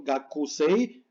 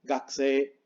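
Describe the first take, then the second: First: Gakusei as "ga-ku-sei", every vowel voiced; wrong, fully sounded U. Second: Gakusei squeezed to "gaksee"; silent U. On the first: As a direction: spell out U and I in gakusei. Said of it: "no suena bien". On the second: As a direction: drop the U in Gakusei, end on long E. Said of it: "es la pronunciación correcta". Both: Shown as a demonstration.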